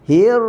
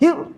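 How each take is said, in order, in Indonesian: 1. Bunyi r sedikit dilepaskan. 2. Bunyi r tertahan dan terputus. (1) "Bunyi hir, itu namanya bayinah" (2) "itu namanya syiddah"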